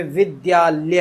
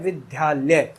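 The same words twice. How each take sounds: First: विद्यालय slow, with द and य joined in one breath; correct dya cluster. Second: विद्यालय said with a dha, विद्धालय; the common wrong way, विद्यालय with dha; wrong dha sound. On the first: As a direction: model the right विद्यालय slowly, the द half and tied to य. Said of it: "जबकि ये विद्यालय नहीं है, ये विद्यालय है". (धीमा, सही उच्चारण विद्यालय) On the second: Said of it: "उच्चारण जो करते हैं वो धा का करते हैं". (विद्यालय में ध की ध्वनि) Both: Shown as a demonstration.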